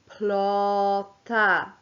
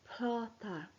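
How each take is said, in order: First: The word is said slowly. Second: The word is said quietly.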